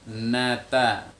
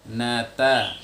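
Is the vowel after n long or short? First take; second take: short; short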